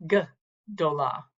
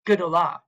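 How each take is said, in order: First: "gdola" with a gap after the opening g; split into syllables. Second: "gedola" run together as one word, louder; pronounced all together. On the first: Teacher isolating the first syllable of "gdola", split apart. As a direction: set the "g" apart, then say the rest of "gdola". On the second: Teacher saying the whole word for students, "gedola" joined up. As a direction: join "gedola" up with no gap after the g. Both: Shown as a demonstration. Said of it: "This would be pronounced altogether".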